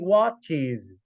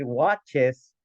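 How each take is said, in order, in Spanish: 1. La terminación se pronuncia como 'iz', con Z. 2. La terminación se pronuncia como 'es', con S. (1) "Tiene ese sonido I Z" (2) "no voy a decir watches"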